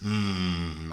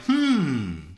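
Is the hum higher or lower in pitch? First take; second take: lower; higher. First: The hum is lower in pitch. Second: The hum is higher in pitch.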